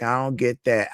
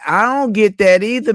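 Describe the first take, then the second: First: Said in the usual way. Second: Louder and higher, punching DON'T; emphatic agreement. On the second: Real, not acted. Answering a viewer's complaint about not working, loud and emphatic. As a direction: hit "don't" hard, full agreement.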